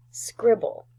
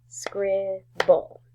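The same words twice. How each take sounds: First: Said in the usual way. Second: "Scribble" broken in two, scrib, pause, ble; split into syllables. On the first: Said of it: "How about the word". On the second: Shown as a demonstration. Teacher counting syllables for the class, "Scribble" split as scrib... ble. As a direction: give each half of "Scribble" its own beat. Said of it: "Scribble has two syllables".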